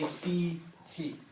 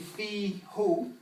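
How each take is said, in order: First: The pronoun is said with an ee vowel. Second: The pronoun is said with an oo vowel. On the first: This form is easier to say after the preceding vowel. "it's easier to say fi he" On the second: This is the pronoun's basic, unchanged form. "Fi is really fi who"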